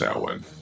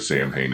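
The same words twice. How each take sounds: First: The name is said with its authentic Gaelic pronunciation. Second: The name is said as its English spelling suggests. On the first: This is the name's real pronunciation. The speaker calls it right. "Samhain is actually pronounced" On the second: This is how the cartoon series said it. The speaker calls it wrong. "how it was pronounced in the series"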